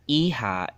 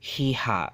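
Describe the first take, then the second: First: The word begins directly with a vowel. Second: The word begins with an h sound. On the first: The speaker calls it right. "the H doesn't get pronounced in Chabacano" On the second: The speaker calls it wrong. "Iha is not Hiha"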